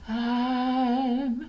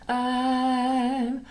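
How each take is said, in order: First: The word starts with a soft breathy onset. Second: The word starts with a soft breathy onset.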